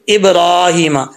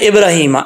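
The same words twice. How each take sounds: First: The vowel after 'r' is held long. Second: The vowel after 'r' is kept short. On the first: The speaker calls it right. "इसको लंबा करके पढ़ना है" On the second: The speaker calls it wrong. "अब लोग पढ़ते हैं इब्राहिमा, ऐसे नहीं पढ़ना"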